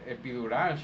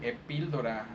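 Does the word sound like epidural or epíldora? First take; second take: epidural; epíldora. First: It is said as epidural, with no l sound. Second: It is said as epíldora, with an l sound. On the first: This is the standard form of the word. The speaker calls it right. "she wasn't saying epi, epidural" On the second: This is how the patient said it. The speaker calls it wrong. "she was saying epíldora"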